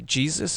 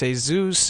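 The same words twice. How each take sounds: First: The name is said with English pronunciation. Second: The name is said with Spanish pronunciation. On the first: This is how the name is said here. "over here it's uh, you say Jesus" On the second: This is how the name is said in Mexico. "it works reverse in Mexico. It's Jesus"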